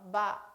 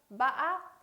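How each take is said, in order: First: The pitch is low, short and abruptly cut. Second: The pitch rises with a sharp break in the middle. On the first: "짧고 또 굵게 끊어서 발음" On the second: "약간의 상승되는 음, 그러나 꺾임이 심한 거"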